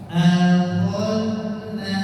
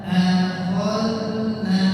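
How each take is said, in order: No difference in how they are said.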